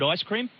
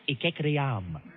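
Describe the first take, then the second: First: It is pronounced in the ordinary way. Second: It is pronounced with oddly altered, exaggerated sounds. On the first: "take the word ice cream" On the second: "think of an alternative pronunciation"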